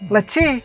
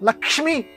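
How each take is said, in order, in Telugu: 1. మధ్య భాగం సరళీకరించి double 'ch' గా మారింది. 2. మధ్యలో పూర్తి 'ksh' సంయుక్త హల్లు ఉంది. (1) "అంత పలకలేక మన వాళ్ళు ఏం చేశారంటే లక్ష్మిని లచ్చి చేశారు" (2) "లక్ష్మి అని అనాలంటే లోపల నుంచి ఎక్కడి నుంచో ఆ పదం రావాలి"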